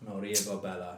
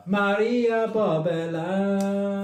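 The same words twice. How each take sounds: First: Said in the usual way. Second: "Maria Bobella" called out high, loud and very slow; drawn-out name. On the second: Shown as a demonstration. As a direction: announce "Maria Bobella" like a showman.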